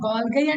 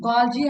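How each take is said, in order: First: It ends with a hard g and 'eye' sound. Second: It ends with a soft j and 'ee' sound. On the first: "కొందరు గాల్గై అంటారు" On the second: "కొందరు గాల్జీ అంటారు"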